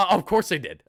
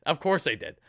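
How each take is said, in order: First: High-pitched yelp. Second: Said in the usual way. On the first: Shown as a demonstration. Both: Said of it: "You gotta go the high pitches".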